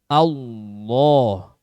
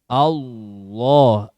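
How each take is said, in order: Both takes have the same delivery.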